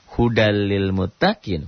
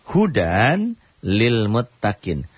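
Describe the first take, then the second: First: The n sound merges into the following l. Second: The n sound is clearly pronounced before l. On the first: "hukumnya idgham bila gunnah"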